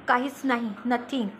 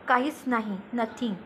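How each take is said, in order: The two takes are said the same way.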